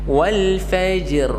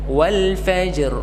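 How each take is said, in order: The two takes are said the same way.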